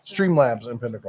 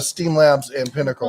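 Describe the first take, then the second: First: "Streamlabs" said with the R after St; corrected product name. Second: "Steam Labs" said without the R in Steam; slipped product name. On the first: Host fixing their slip on the software name, corrected pronunciation. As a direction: say "Streamlabs" with a clear STR start. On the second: Host misnaming streaming software, slipped pronunciation. Slip, then corrected. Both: Real, not acted.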